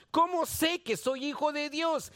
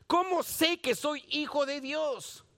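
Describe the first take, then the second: No difference in how they are said.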